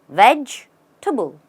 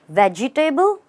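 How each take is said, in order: First: It ends with a reduced "tibble" sound. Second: It ends with a full "table" sound. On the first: The speaker calls it right. "The table becomes table. It sounds like tibble" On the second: The speaker calls it wrong. "Is it a veggie table? No"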